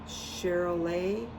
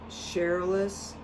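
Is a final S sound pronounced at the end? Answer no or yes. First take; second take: no; yes. First: The word ends without any S sound. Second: The word ends with an audible S sound. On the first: The speaker calls it right. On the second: The speaker calls it wrong.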